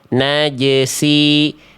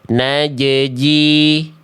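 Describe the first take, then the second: First: The z sound is replaced by an s sound. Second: The z sound is replaced by a second j. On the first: "zai-nya ketukar jadi huruf sin" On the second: "huruf zai-nya dibaca jadi jim"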